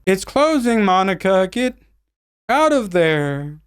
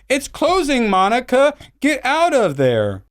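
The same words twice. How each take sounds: First: It is said flatly and woodenly. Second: It is said with emotion.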